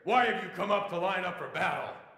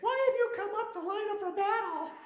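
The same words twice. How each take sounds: First: It is said in a big biker's gruff voice. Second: It is said in an ordinary, unthreatening voice.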